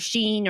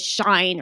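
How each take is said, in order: First: It is pronounced like the word sheen. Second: It is pronounced like the word shine. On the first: "or Sheen" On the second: "everyone says Shine"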